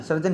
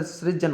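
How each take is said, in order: First: सर्जन as "sar-jan"; r after the vowel in सर्जन; wrong pronunciation. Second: सृजन as "sri-jan"; correct pronunciation. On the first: Teacher shows students the error, mispronounced. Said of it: "सर्जन नहीं होता". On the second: Teacher corrects it for students, careful pronunciation. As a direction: open सृजन on a "sri" cluster. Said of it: "सृजन होता है". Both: Shown as a demonstration.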